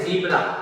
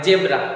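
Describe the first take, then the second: First: The first vowel sounds like 'ee'. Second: The first vowel sounds like 'eh'. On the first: The speaker calls it right. "इसको अपने पढ़ते हैं जीब्रा" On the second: The speaker calls it wrong. "बिल्कुल wrong है"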